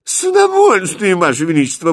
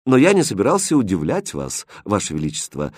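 First: Very high, loud eager reply; delighted to oblige; beaming. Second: Calm. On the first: Prince eagerly answers the king, beaming and loud. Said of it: "просияв, ответил Христиан". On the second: Prince calmly answers the queen, composed. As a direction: answer the queen without any fuss. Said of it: "спокойно ответил Хрустальд". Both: Acted.

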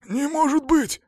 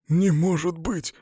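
First: Much higher, strained hoarse cry; hoarse disbelief. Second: Slow, higher gasp of disbelief; breathed out in disbelief. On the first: Cornered man struggles to break free, hoarse disbelief. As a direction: repeat it high and husky, disbelieving. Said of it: "сипло повторил он". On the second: Cornered man recognises his old friend, breathed out in disbelief. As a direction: let it out slowly on an exhale. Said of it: "выдохнул он". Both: A narrator's reading.

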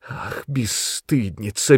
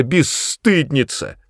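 First: Slow, drawn-out rising reproach. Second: High, slow, falling final insult; sharp reproach. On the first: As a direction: let the insult linger. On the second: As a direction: spit the insult out. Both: A narrator's reading. Mother berates daughter.

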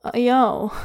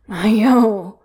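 First: A mild warning with desperation underneath; warning, desperate. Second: Ground out louder through gritted teeth; gritted, desperate. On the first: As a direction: plead and warn at once. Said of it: "warning and, and desperate". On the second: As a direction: force the name out in desperation. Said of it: "grits out desperately". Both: Acted.

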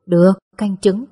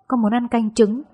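First: Louder, readily agreeing motherly reply; indulgent. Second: Lightly acted frail, pampered-child plea; weakly coaxing. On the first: Mother agrees to daughter's request, indulgently. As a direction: give in fondly and firmly to a pampered child. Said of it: "Mẹ gật đầu chiều chuộng". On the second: Sick daughter asks mother for egg soup, feebly coaxing. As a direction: wheedle a little, as if still poorly. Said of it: "Tôi nũng nịu nói với giọng yếu ớt". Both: A narrator's reading.

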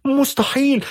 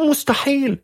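First: High-pitched cry of disbelief; a frantic mother screaming it can't be true. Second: High, desperate cry of disbelief; a frantic mother repeating it can't be; mother screaming. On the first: (صرخة أم مذعورة بصوت حاد) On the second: (صرخة أم يائسة بصوت حاد) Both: A narrator's reading. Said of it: "فصرخت والدتها".

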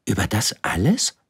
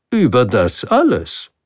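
First: „alles“ lifted as an amazed question; astonished question. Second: Loud, higher, falling on „alles“; „alles“ set down firmly as fact; confirming king. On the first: („Über das alles?“ staunend fragend, „alles“ steigend) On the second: („Über das alles“ bestätigend, „alles“ fallend und fest) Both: Acted. Prince questions, king confirms.

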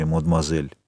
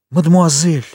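First: Said in the usual way. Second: «Мадемуазель!» thrown back higher and louder; «Мадемуазель!» as an offended cry; exclaimed. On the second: Acted. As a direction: hurl the word back at him, hurt. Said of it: "воскликнула Валентина".

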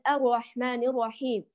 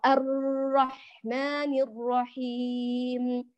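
First: الرحمن الرحيم with the doubled r made light and short; r without doubling. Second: الرحمن with the doubled r drawn out far too long, very slow; over-stretched doubled r. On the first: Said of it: "يقرأ الراء مخففة". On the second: Teacher showing students the stretched doubled r. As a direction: drag the shadda on the r in الرحمن. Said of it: "تمطيط الشد في الراء". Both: Shown as a demonstration.

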